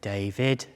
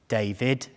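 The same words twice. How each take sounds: First: David said low, stress landing on vid with a small rise; lower ominous name call. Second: David, both syllables drawn out, ending on a rise; wife's weighty name call. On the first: Wife at the bath, summoning her husband, low and ominous. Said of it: "Oh, it's the vid". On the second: Wife at the bath, calling her husband's name, ominous. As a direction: say David slowly in two full syllables, the vid lifting. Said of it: "I can't even say it the way she does". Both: Retold or imitated.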